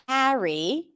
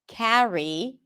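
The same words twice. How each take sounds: First: The first vowel sounds like the vowel in cat. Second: The same.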